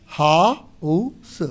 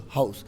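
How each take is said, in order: First: Slow, stretched हाउस said as haus with the h sounded; drawn-out house. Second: Said in the usual way. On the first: Shown as a demonstration. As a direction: model हाउस slowly for the class. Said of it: "यहाँ लिखा है हाउस". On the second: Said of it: "तो यहाँ ए लगा रहे हैं".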